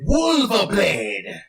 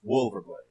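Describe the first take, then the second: First: It is said in a non-American accent. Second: It is said in a plain American accent.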